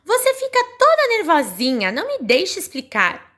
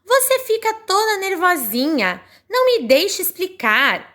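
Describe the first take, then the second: First: Voicing Telim again. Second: Voicing Telim. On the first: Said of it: "e eu vou reler, vejam bem". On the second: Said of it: "o Telim fala assim".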